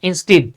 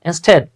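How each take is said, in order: First: The second vowel sounds like 'ee'. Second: The second vowel sounds like 'eh'. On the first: The speaker calls it wrong. "কিন্তু আমরা পড়ে আসছি কি বাবা" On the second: The speaker calls it right. "It's not ইনস্টিড, rather ইনস্টেড"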